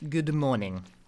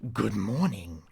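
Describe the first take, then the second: First: It is said in a natural speaking voice. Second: It is said in a Namco announcer voice.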